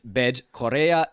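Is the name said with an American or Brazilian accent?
Brazilian. It is said with a Brazilian Portuguese pronunciation. The speaker calls it right. "That is Brazilian"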